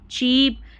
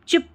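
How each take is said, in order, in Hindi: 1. स्वर लंबी 'ee' ध्वनि है। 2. स्वर छोटी 'i' ध्वनि है। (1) "बड़ी ई की जैसे" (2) "चिप चिप पढ़ देते तो गलत"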